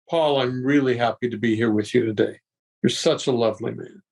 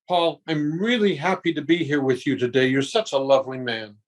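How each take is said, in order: First: It is lower-pitched and unhurried. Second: It is high-pitched and fast.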